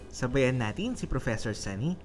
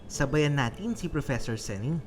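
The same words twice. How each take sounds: No difference in how they are said.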